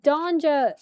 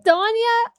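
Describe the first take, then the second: First: The name is said with a J sound. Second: The name is said without a J sound. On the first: "like with the J. I pronounce the J" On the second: "I don't say Danya"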